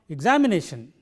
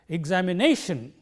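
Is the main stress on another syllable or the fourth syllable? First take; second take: another syllable; fourth syllable. First: The stress is not on the fourth syllable. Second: The stress is on the fourth syllable. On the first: The speaker calls it wrong. "It is not" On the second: The speaker calls it right. "we pronounce it like this"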